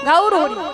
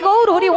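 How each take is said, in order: First: The first word is drawn out as 'gaur'. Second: It is said with a native Bengali pronunciation. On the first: This is how foreigners who cannot pronounce Bengali say it. The speaker calls it wrong. "ওনারা গৌর হরি বলতে পারে না, বলে গাউর Hari" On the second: This is how local speakers say it. The speaker calls it right. "আমরা বলি গৌর হরি"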